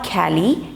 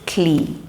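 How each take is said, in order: First: The ending has a full vowel, sounding 'ka-lee'. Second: The ending has no vowel, sounding 'klee'. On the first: The speaker calls it wrong. "So it's not Cali" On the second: The speaker calls it right. "it's clee"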